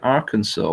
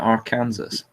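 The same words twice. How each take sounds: First: The word is said in its usual pronunciation. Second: The word is said as it is spelled. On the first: This is how people want it pronounced. "if they wanted me to pronounce it" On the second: This is how the spelling suggests it sounds. "why did they spell it"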